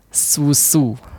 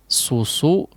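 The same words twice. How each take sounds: First: The s sounds light and thin. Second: The s sounds heavy and thick. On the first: "Tipis terdengar" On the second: "Karena S-nya tebal ya"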